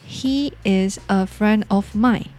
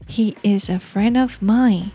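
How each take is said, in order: First: The word 'of' is said fully and clearly. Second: The word 'of' is said lightly and quickly. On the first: The speaker calls it wrong. "台湾人通常都会念成" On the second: The speaker calls it right. "我们可以把它念轻声一点带过去就好"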